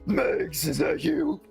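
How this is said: It is read in a gruff put-on character voice.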